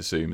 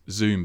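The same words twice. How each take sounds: First: Zoom starting on a hissless-voiced S, as Soom. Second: Said in the usual way. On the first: Shown as a demonstration. Host checking guest's surname, Zoom pronounced with an S. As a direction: say Soom, S replacing the Z. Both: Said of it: "but with an S".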